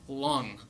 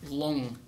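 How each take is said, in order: No difference in how they are said.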